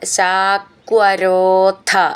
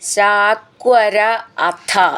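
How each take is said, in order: First: The two words are joined into one. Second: The two words are said separately.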